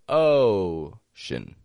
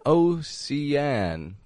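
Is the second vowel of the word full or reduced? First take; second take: reduced; full. First: The second syllable has a reduced schwa vowel. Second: The second syllable has a full, clear vowel. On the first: The speaker calls it right. "but ocean, shin, schwa, ocean" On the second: The speaker calls it wrong. "Not an ocean"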